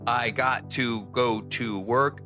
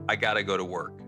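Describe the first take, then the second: First: Got to is said in full with a T. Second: Got to is reduced with a D-like sound.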